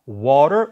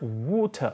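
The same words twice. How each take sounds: First: It has an open vowel with a dropped jaw. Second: It has a rounded vowel with a raised jaw.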